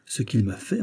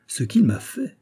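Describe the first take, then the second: First: Said in the usual way. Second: "ce qu'il m'a fait" rising higher in mild enthusiasm; enthusiastic. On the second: A narrator's reading. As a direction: burst out "ce qu'il m'a fait!" with a touch of delight. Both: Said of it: "s'écria Porthos avec enthousiasme".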